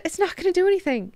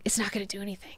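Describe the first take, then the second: First: Much higher, quick and light; high put-on voice. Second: Hushed whisper, no voice. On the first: Telling himself Twitter fights are pointless, high and quick. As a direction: squeak it out fast, dismissively. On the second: Acted. Telling himself Twitter fights are pointless, whispered. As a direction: breathe it like a secret to yourself.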